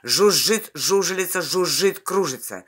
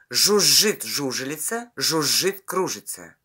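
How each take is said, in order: First: It is spoken at a faster pace. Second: It is spoken at a slower, steady pace.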